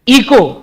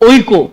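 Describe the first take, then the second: First: The word begins with an 'ee' sound. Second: The word begins with an 'oy' sound. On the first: "the actual pronunciation is इको" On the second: "but we will deliberately call as ओइको"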